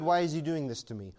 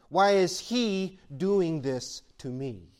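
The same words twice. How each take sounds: First: Said in the usual way. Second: Each word dragged out in a pleading whine; slow drawn-out complaint. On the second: Retold or imitated. Believer asking God why, slow pleading. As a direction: slowly ask why is He doing this to me. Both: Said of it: "we say".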